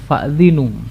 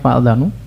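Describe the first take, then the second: First: The vowel after the dh sound is i. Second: The vowel after the dh sound is a. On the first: Announce to them that war is declared. "dengan kasrah di huruf dzal tersebut" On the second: Be informed that war is declared on you. "dengan fathah dalnya"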